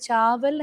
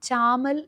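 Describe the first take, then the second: First: The word has a v sound in the middle. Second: The word has an m sound in the middle. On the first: This is the standard Hindi form. "ചാവൽ എന്ന് നമ്മൾ റൈസിന് പറയുകയാണെങ്കിൽ" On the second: This is the speaker's community dialect form. "ചാമൽ എന്നായിരിക്കും പറയുക"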